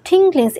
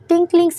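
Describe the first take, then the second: First: The first consonant is a breathy-aspirated t. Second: The first consonant is a plain t.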